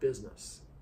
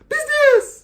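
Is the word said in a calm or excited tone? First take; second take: calm; excited. First: It is said in a calm, normal tone. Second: It is said in an excited tone.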